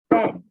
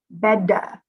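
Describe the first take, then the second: First: The word ends cleanly on the d sound. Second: The word ends with an added uh vowel. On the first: The speaker calls it right. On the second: The speaker calls it wrong.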